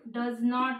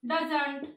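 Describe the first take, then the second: First: It is said as two full words. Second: It is contracted into one word.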